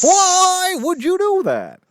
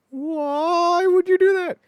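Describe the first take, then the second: First: High, loud, drawn-out comic wail; hammed-up sitcom horror; horrified wail. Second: Long, high, loud mock wail; hammed-up anguish, stretched out slowly; horrified wail. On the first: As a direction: wail it slowly in mock anguish. Horrified reply in acted sitcom. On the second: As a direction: cry out like an appalled sitcom star. Horrified reply repeated in sitcom.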